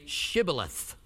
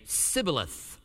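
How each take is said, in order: First: "Shibboleth" with an initial SH sound; correct pronunciation. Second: "Sibboleth" with S in place of SH; mispronounced. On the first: Shown as a demonstration. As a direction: say "Shibboleth" slowly, starting on a clear sh. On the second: Acted. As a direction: say "Sibboleth", starting on a hissed s, not sh. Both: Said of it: "he could not pronounce it right".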